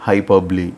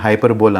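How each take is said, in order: First: The word ends with a 'blee' sound. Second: The word ends with a 'bowl' sound. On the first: The speaker calls it right. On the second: The speaker calls it wrong.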